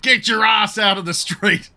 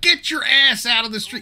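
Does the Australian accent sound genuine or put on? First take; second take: genuine; put on. First: It is said in a natural Australian accent. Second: An American voice imitates an Australian accent. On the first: The speaker calls it right. "he would have said" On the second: The speaker calls it wrong. "very obviously an American putting on an Australian accent. Because instead of"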